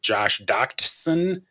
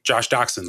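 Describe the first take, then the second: First: The T in the surname is pronounced. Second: The T in the surname is silent. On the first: "do you pronounce the T? Is it Josh Doctson?" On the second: "so it's really more like Josh Doctson, like the wiener dog"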